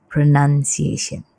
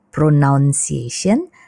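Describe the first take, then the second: First: The second syllable sounds like 'nun'. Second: The second syllable sounds like 'noun'. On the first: The speaker calls it right. "tapi pronunciation" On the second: The speaker calls it wrong. "bukan pronunciation"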